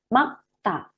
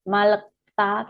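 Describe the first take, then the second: First: Only a k sound comes right before ta. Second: An l, a vowel, then k come before ta. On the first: The speaker calls it right. "Tetapi ini makta. Yang dilafalkan huruf G-nya" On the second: The speaker calls it wrong. "atau bukan malekta"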